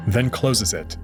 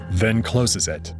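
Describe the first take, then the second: No difference in how they are said.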